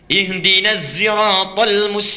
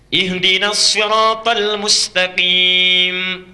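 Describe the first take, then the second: First: Sirat begins with a voiced z sound. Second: Sirat begins with an emphatic, heavy s sound. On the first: This follows a third transmitted reading tradition. "pakai zai bisanya" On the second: This follows one transmitted reading tradition. "Pakai sod"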